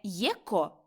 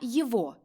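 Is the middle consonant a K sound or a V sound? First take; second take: K sound; V sound. First: The middle consonant is a k sound. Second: The middle consonant is a v sound. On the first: The speaker calls it wrong. "Не єко" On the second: The speaker calls it right. "а єво"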